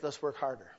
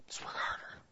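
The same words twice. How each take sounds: First: Said in the usual way. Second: Soft unvoiced whisper of Let's work harder; hushed whispered repeat. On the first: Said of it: "repeated, then whispered". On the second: Shown as a demonstration. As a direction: breathe it like a secret. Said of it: "repeated as a whisper".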